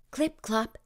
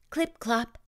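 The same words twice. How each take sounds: The two takes are said the same way.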